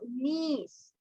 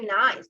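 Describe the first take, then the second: First: The vowel sounds like 'ee'. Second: The vowel sounds like 'eye'. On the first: The speaker calls it right. "No, knees" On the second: The speaker calls it wrong. "we are not going to say nice"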